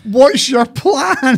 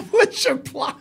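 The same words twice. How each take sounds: First: High, slow, incredulous parody; mocking drawn-out echo. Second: High, laughing parody of a question; mocking echo. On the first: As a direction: stretch it out in mock disbelief. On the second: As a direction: echo it in a high, giggly mock voice.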